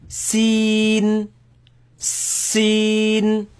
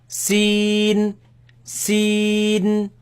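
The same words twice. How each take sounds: Both takes have the same delivery.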